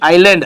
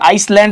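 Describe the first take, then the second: First: No s sound is said before the l. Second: An s sound is said before the l. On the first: The speaker calls it right. "એસ ની અંદર છે લોપ થઈ ગયેલો હોય છે" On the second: The speaker calls it wrong. "આઇસલેન્ડ એમ બોલાતું નથી"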